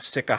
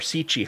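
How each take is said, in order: First: The second consonant is a k sound. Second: The second consonant is a ch sound.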